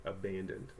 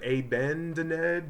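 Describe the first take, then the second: First: Said in the usual way. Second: "abandoned" misread as "AY-ban-duh-ned"; deliberate misreading. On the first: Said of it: "so this word is". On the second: Shown as a demonstration. Teacher showing it sounds unlike a word, misreading. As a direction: say "abandoned" with long A and a separate "ned". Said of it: "does not sound like a word".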